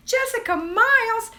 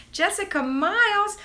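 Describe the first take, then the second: First: Shrieking the name high and loud; excited. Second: High, loud call of the name; excited. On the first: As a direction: squeal the name out. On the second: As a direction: call it out with delight. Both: Real, not acted. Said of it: "I got my first greeting".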